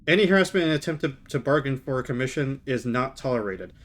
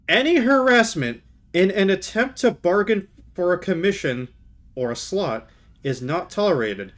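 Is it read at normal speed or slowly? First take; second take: normal speed; slowly. First: It is read at normal speed. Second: It is read slowly and deliberately.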